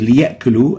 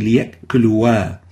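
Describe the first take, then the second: First: The word ends on 'lu' with no added sound. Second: The word ends with an extra 'wa' sound. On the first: The speaker calls it right. "we say liya'kulu" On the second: The speaker calls it wrong. "we don't say liya'kuluwa"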